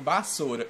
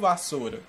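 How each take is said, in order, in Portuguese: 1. A palavra "vassoura" é dita à maneira da geração mais velha. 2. A palavra "vassoura" é dita da forma atual, do dia a dia. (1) "eles chamam vassoura" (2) "e não vassoura, como nós chamamos"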